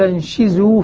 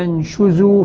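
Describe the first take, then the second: First: The sh sound is followed by an i vowel. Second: The sh sound is followed by an u vowel. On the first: "بكسر الشين" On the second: "بضم الشين"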